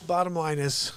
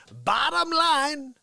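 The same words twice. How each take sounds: First: Said in the usual way. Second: Slow, high, drawn-out "Bottom line"; drawn-out emphasis. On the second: Shown as a demonstration. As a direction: stretch out "Bottom line" slowly. Repeats earlier "bottom line" with emphasis.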